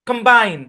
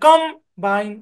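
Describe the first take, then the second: First: The stress is on the second syllable. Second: The stress is on the first syllable. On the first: The speaker calls it right. "বাইন, এখানে চাপ দিচ্ছি" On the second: The speaker calls it wrong. "আমি কিন্তু কমের মধ্যে চাপ দিচ্ছি, combine, এভাবে বলতেছি না"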